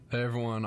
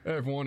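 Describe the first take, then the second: First: It is said in his ordinary speaking voice. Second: It is said in a put-on cartoon voice. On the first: "he didn't" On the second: "Do the Peter Griffin"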